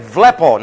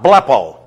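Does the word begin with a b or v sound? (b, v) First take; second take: v; b. First: The word begins with a v sound. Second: The word begins with a b sound. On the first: The speaker calls it right. "You say vlepo" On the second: The speaker calls it wrong. "not blepo"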